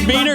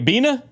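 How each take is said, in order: First: The final r sound is clearly pronounced. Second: The final r sound is dropped completely. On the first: The speaker calls it right. "Hard R on the Beaner is crazy" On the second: The speaker calls it wrong. "Bina would be crazy"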